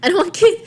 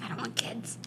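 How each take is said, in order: First: High, loud mocking echo; loud playful echo. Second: Whispering under the breath; whispered. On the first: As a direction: throw the line back louder. Friend echoes the line loudly. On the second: Retold or imitated. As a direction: breathe it out voicelessly. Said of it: "I'm like".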